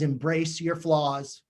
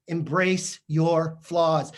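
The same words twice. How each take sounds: First: Said in the usual way. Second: "Embrace your flaws" said slowly, every word weighted; slow emphatic repeat. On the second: Shown as a demonstration. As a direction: drag out "Embrace your flaws" to drive it home.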